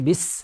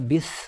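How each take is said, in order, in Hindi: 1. यह व्यंजन एक तीखी, सीटी जैसी s ध्वनि है। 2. यह व्यंजन एक नरम th जैसी ध्वनि है। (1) "जब सीन कहेंगे तो एक सीटी की आवाज़ निकलेगी" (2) "इसको हम सा की तरह नहीं पढ़ सकते, गलत हो जाएगा। बिस ऐसे नहीं पढ़ सकते"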